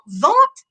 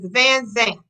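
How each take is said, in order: First: The surname is said as one short syllable. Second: The surname is said as two full syllables. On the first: The speaker calls it wrong. "But that's not her name" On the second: The speaker calls it right. "Her name is Van Zant"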